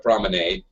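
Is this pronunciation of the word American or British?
American. It is said the American way, with an A. "I call it a promenade with an A because I'm an American"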